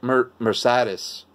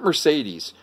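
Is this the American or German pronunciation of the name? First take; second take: German; American. First: It is said with a German pronunciation. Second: It is said with an American pronunciation. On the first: The speaker calls it right. "I'm trying to pronounce it like the Germans do. It's like Mercedes" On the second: The speaker calls it wrong. "It's not Mercedes. We in America, people go Mercedes-Benz"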